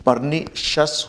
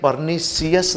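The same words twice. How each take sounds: First: Pernicious ending in 'shus', 'per-NI-shus'; correct pronunciation. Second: Pernicious ending in 'si-us', 'per-ni-si-us'; wrong pronunciation. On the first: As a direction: slowly say pernicious with no i sound after 'sh'. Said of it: "pernicious होगा". (pernicious का सही उच्चारण, 'परनीशस') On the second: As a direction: slowly say pernicious with the i sounded, 'see-us'. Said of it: "जैसे ये pernicious नहीं". (pernicious का गलत उच्चारण, 'परनीसियस') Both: Shown as a demonstration.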